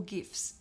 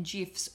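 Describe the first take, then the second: First: "gifs" with a hard G; hard-G pronunciation. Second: "gifs" said with a J sound; soft-G pronunciation. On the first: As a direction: say "gifs" with G as in gift. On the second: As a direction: say "gifs" like "jifs". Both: Shown as a demonstration. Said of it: "if you are pronouncing it that way".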